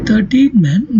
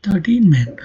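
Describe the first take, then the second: First: Put-on "thirteen men" with THIR stressed instead of TEEN. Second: Put-on "thirteen men" with TEEN and MEN both stressed. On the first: Teacher demonstrates the usual shifted pronunciation to learners, stress on THIR. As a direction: hit the first syllable of "thirteen", then "men". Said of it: "stress at the beginning of the word thirteen". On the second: Teacher shows learners the stress clash to avoid, stress on TEEN. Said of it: "primary lexical stress of the two words falls". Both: Shown as a demonstration.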